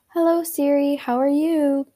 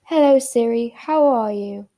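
First: It is said in an American accent. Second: It is said in a British accent.

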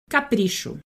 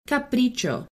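First: It is pronounced with Portuguese sounds. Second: It is pronounced with Spanish sounds. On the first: "it's written the exact same way in Portuguese, but we say it differently" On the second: "capricho in Spanish"

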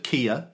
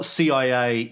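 First: It is one word starting with a k sound. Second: Each of the three letters is spoken separately.

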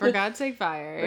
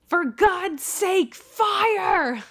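First: It is said casually, like coaxing friends. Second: It is shouted with urgent force.

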